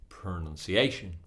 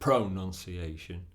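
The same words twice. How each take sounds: First: The stress is on the fourth syllable. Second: The stress is not on the fourth syllable. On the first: The speaker calls it right. "On the fourth syllable" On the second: The speaker calls it wrong. "we can't say pronunciation or pronunciation. It's not correct"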